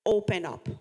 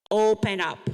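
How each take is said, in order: First: Said in the usual way. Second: Louder, rallying "Open up"; loud call and response. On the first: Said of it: "let's say". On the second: Shown as a demonstration. Speaker leads the audience in chanting, loudly. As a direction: belt "Open up" out together with the room. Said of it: "Say it with me".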